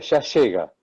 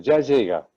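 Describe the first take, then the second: First: The y and ll share one sound. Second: The y and ll sounds are kept distinct. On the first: This is how the speaker himself said it. "yo por ejemplo tenía yeísmo" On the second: This is how a radio announcer said it. "escuchaba a Soldán que decía"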